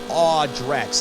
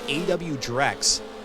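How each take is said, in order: First: The first part is said as one syllable. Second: The first part is spelled out letter by letter. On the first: The speaker calls it right. "he corrected me saying it's like Aw Drex" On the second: The speaker calls it wrong. "I believe I used to call him A W Drex"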